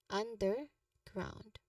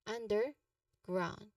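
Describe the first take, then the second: The two takes are said the same way.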